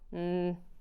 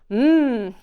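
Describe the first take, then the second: First: It is a quiet, unenthusiastic hum. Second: It is a loud, very enthusiastic hum.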